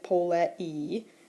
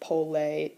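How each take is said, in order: First: The final two vowels are said as separate syllables. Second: The final two vowels merge into one diphthong. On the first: The speaker calls it wrong. "instead of pronouncing it pole-e" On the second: The speaker calls it right. "those two come together in a diphthong and it's pole, two syllables"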